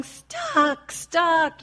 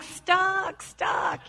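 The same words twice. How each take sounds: First: High, mock-frantic toddler cry; toddler shouting stuck. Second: High, breathy mock toddler wail; toddler cry. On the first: Mother mimics her toddler stuck in a turtleneck, high mock cry. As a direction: imitate a little girl trapped in her shirt. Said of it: "she's shouting". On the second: Speaker imitates herself as a stuck toddler, high mock wail. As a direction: play yourself as the stuck child. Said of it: "I'm like".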